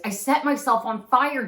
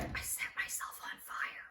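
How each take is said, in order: First: I set myself on fire said louder and exasperated; aunt raising her voice when asked to say it louder. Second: Whispered I set myself on fire, barely audible; aunt whispering the news over the phone. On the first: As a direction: repeat it loudly, annoyed at having to. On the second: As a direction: confess it under your breath. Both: Retold or imitated. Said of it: "You have to say that louder".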